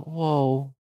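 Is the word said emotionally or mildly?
mildly. The word is said mildly, without strong feeling. The speaker calls it wrong. "You don't say, like, in a mild way"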